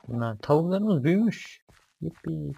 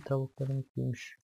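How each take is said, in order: First: High and loud, delighted; excited. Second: Said in the usual way. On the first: Real, not acted. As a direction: cheer it out with joy. Delighted the chickens grew.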